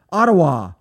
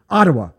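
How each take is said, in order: First: "Ottawa" said AH-tuh-wah with a crisp t; "Ottawa" with clear t and open final ah; correct Ottawa. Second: "Ottawa" said AH-duh-wuh with a flapped d; New Yorker way of saying Ottawa. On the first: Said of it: "No, Ottawa". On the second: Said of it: "I don't like the way New Yorkers say". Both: Shown as a demonstration.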